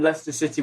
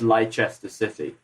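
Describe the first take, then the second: First: Leicester is said the British way, short. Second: Leicester is said the American way, spelled out.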